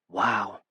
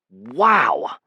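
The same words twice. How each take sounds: First: It is said softly. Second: It is said loudly.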